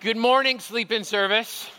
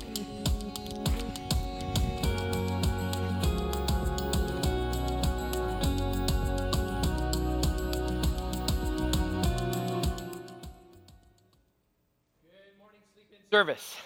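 First: It is said with high energy. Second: It is said with low energy.

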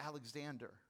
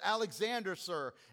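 First: The name is said quietly. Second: The name is said in a stronger voice.

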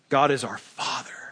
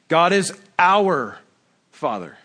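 First: The word Father is stressed. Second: The word our is stressed.

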